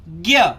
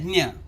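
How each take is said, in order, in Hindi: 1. यह 'gya' ध्वनि के साथ बोला जाता है। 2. यह 'nya' ध्वनि के साथ बोला जाता है। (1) "उसका उच्चारण हिंदी में ज्ञ ऐसा करेंगे, वो सही है" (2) "मराठी का जो ज्ञ है"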